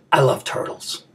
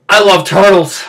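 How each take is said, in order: First: Soft, low, holding back emotion; subdued and choked up; getting emotional. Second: Heartfelt, emotional declaration. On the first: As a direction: say it quietly, trying to keep it together. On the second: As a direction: declare it in full voice, feeling welling up. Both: Acted. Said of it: "I'm getting a little emotional".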